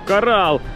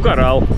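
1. Слово звучит восторженно и удивлённо. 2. Слово звучит ровно и без интереса. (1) "когда я сначала увидел коралл, я такой, вау" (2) "здесь уже оно даже как-то не ценится"

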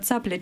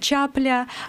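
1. Слово начинается со звука 'ts'. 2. Слово начинается со звука 'ch'. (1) "вместо цапля" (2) "на месте «ц» — «ч»"

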